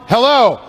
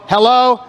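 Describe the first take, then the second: First: The voice has a pleasant, moderate ringing tone. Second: The voice has a pleasant, moderate ringing tone.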